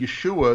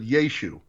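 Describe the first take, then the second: First: The name ends with a final guttural 'ah' syllable. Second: The name ends on 'oo', without the guttural syllable. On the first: This is the full written form with the ayin. "instead of saying Yeshua" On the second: This is how people of the time would have said it. "they'd have dropped the guttural aspirant"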